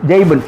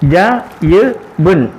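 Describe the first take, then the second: First: It is read quickly as one joined word. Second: It is read slowly, split into separate syllables.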